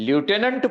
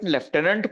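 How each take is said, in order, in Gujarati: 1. તે 'loo' અવાજથી શરૂ થાય છે, f નથી. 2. તે 'left' અવાજથી શરૂ થાય છે, f સાથે. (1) "લ્યુટેનન્ટ પણ એનો ઉચ્ચાર છે" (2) "લેફ્ટનન્ટ પણ બોલે છે"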